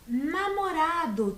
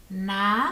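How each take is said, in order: First: Said in the usual way. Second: Namorado split as NA-MO-RA-DO, paused between syllables. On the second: Shown as a demonstration. (Namorado separado em quatro sílabas, com pausas) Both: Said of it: "também possuem quatro sílabas".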